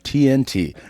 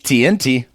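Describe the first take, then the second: First: The middle letter N is not raised in pitch. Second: The pitch goes up on the middle letter N. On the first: The speaker calls it right. "It's how it's supposed to be on T N T, you don't go up on the second letter" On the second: The speaker calls it wrong. "not T N T"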